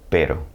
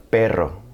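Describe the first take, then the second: First: "Pero" with a short single-tap R; soft tapped R. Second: "perro" with the R drawn out in a trill; stretched rolled R. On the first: Teacher sets up contrast with perro, tapped Pero. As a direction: keep the R in "Pero" to one tap. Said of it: "Now, if I stretched it out". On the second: Teacher turns pero into perro, long trill. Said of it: "if I stretched it out". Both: Shown as a demonstration.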